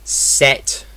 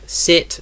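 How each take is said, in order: First: The vowel sounds close to an eh sound. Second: The vowel is a short English i sound. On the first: "In Scottish English, this will be set" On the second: "We have sit and set"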